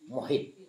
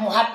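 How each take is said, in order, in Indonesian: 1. Suku kata kedua vokalnya i. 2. Suku kata kedua vokalnya a. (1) "Kalimat yang betul day ujungnya" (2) "Yang itu kalimat yang salah"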